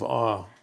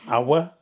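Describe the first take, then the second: First: The word is said as one syllable. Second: The word is said as two syllables. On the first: The speaker calls it right. "The days of awe" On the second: The speaker calls it wrong. "I didn't know how to pronounce that. I was like, awa?"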